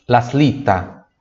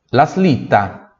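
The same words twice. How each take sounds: The two takes are said the same way.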